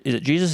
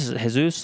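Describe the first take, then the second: First: "Jesus" asked as JEE-zus; English pronunciation. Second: "Jesus" asked as heh-SOOS; Spanish pronunciation. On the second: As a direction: ask with "Jesus" said Spanish-style, H and oos. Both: Retold or imitated. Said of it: "butchering your name".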